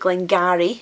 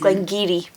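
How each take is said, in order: First: The second part sounds like 'garry'. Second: The second part sounds like 'geary'. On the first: The speaker calls it wrong. "they call it Glengarry. That's half an attempt" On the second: The speaker calls it right. "but it's Glengeary"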